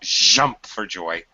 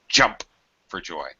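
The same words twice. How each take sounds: First: The J sounds are dragged out, buzzing like zh. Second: The J sounds are quick and short. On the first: The speaker calls it wrong. "Not jump for joy. / drag that J sound" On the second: The speaker calls it right. "J is a fast sound. Fast"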